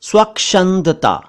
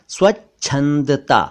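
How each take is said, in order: First: The middle consonant is pronounced as ksh. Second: The middle consonant is pronounced as chh. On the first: The speaker calls it wrong. "ये भी गलत है" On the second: The speaker calls it right. "सही word है स्वच्छंदता"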